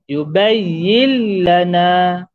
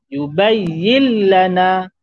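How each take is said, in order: The two takes are said the same way.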